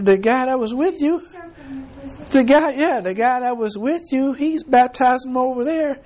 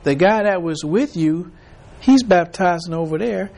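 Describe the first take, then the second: First: Higher, hurried tattletale report; excited disciples. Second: Said in the usual way. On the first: Acted. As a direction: blurt it out like eager gossiping followers. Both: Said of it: "Do what I just said".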